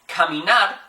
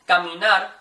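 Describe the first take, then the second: First: The first k has a puff of air. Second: The first k has no puff of air. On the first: The speaker calls it wrong. "something more like caminar, like a k" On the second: The speaker calls it right. "you're not going to feel really any air hit your hand"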